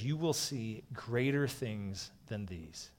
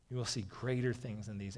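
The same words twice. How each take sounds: First: Slowed right down, each word weighed; slow, solemn reading of a promise; slow solemn quote. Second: Said in the usual way. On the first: Acted. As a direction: let the promise land slowly. Quoting Jesus, slowed for weight.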